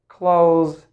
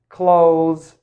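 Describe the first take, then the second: Both takes have the same delivery.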